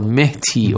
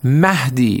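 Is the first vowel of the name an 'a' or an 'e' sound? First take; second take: e; a. First: The first vowel is an 'e' sound. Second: The first vowel is an open 'a' sound. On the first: The speaker calls it wrong. "It is not Mehdi" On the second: The speaker calls it right. "it is Mahdi"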